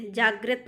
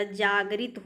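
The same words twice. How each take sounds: First: जागृत as "jaagrat", with an a; wrong pronunciation. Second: जागृत as "jaagrit", with an i; correct pronunciation. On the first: Teacher showing students the error, जागृत as "jaagrat". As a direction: end जागृत on "grat". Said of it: "जागृत नहीं होता". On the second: Teacher correcting students, जागृत as "jaagrit". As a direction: end जागृत on "grit". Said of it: "जागृत होता है". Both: Shown as a demonstration.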